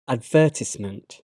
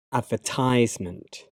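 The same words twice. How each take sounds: First: "advertisement" as ad-VER-tis-ment, short "i"; British pronunciation. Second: "advertisement" as AD-ver-tize-ment, with a long "i"; American pronunciation. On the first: Teacher reading the British form of each pair, British pronunciation. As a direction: stress the second syllable of "advertisement". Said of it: "my American pronunciation". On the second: Teacher trying the American form, American pronunciation. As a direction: stress the first syllable of "advertisement" and say "-tize-". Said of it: "my American pronunciation may not be completely accurate".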